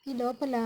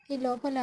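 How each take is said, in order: Both takes have the same delivery.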